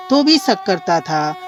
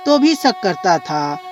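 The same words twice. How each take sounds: The two takes are said the same way.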